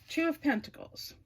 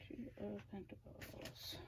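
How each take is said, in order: First: Said in the usual way. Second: Barely voiced whisper under her breath. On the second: Real, not acted. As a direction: whisper it to yourself while looking it up. Muttering while searching the book.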